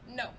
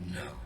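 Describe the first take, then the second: First: It is said in a plain, ordinary voice. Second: It is said in a darker, sinister voice. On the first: The speaker calls it wrong. "you don't sound like the captain" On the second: The speaker calls it right. "that sounds a bit more like the captain"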